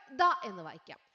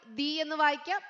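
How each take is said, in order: First: ദ said short with a neutral vowel; the as duh; the as thuh. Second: ദി said with a long ee; the as dee; the as thee. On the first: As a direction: read it ദ, a short uh. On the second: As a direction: read it ദി, ending in ee. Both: Shown as a demonstration. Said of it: "എങ്ങനെ വായിക്കണം?".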